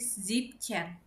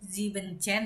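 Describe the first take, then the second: First: The word is said with a syllable dropped. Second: The word is said with all its syllables. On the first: The speaker calls it right. "jadinya disingkat" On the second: The speaker calls it wrong. "sepertinya harusnya Zibenchen"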